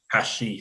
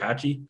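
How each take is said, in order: First: The middle consonant is an 'sh' sound. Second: The middle consonant is a 'ch' sound. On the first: The speaker calls it right. "Hashi, sorry" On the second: The speaker calls it wrong. "That's how you say it, right?"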